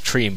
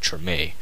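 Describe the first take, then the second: First: The name is said as one syllable. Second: The name is said as two syllables. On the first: The speaker calls it wrong. "I thought it was Treem" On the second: The speaker calls it right. "but it's actually Treme"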